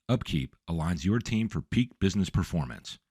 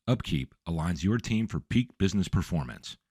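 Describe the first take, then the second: No difference in how they are said.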